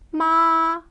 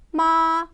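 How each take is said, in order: First: The pitch stays high and level. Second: The pitch stays high and level.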